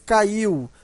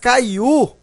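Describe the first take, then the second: First: The final U sounds weak, gliding off the I. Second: The final U sounds strong, like a full vowel. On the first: The U is a semivowel. "O som é fraco" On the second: The U would be a vowel. "aí era forte"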